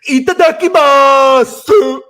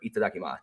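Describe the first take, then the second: First: It is said in a ridiculous Luffy impression. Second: It is said in a plain, ordinary voice.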